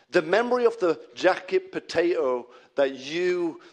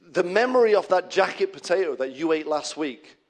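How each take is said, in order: First: Accidental touch of Yorkshire; Yorkshire accent. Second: Said in the usual way. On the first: Real, not acted. Preacher recalling last week's jacket potato, slipping into Yorkshire accent. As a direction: let a Yorkshire accent slip out. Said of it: "came out in a Yorkshire accent". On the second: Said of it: "I don't know why that came out".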